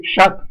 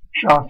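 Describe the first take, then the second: First: "chatte" ending on a clear T; final T sounded. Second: Said in the usual way. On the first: Shown as a demonstration. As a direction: sound the last consonant of "chatte". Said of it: "on met un T à la fin". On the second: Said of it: "prononcé".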